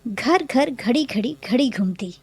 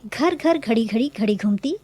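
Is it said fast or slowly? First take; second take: slowly; fast. First: It is read at a normal, slow pace. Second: It is said very quickly.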